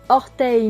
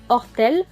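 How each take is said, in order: First: The word ends with an 'ey' sound. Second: The word ends with an 'el' sound. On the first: "Le son ei comme dans orteil" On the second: "on dira ortel"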